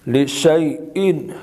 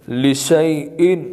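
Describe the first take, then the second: Both takes have the same delivery.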